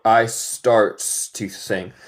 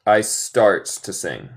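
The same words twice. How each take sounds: First: "I starts to sing." spoken very slowly; slow test sentence; slow quiz read. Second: "I starts to sing." again, slowly; slow repeat of the test sentence. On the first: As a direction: spell out "I starts to sing." word by word. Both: Shown as a demonstration. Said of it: "es correcto o incorrecto".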